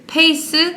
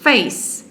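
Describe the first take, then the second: First: The word begins with a p sound. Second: The word begins with an f sound. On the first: The speaker calls it wrong. "try saying it in like a proper Korean accent" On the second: The speaker calls it right. "to pronounce F, you do this and do this"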